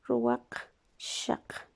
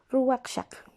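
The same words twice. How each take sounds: First: Ruwakshak stretched out very slowly and breathed, almost voiceless; slow breathy dictation. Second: Said in the usual way. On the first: Shown as a demonstration. Teacher to class while writing, Ruwakshak breathed out very slowly. Teacher writes the new word.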